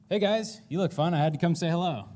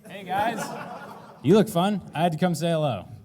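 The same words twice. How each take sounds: First: It is said fast. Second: It is said slowly.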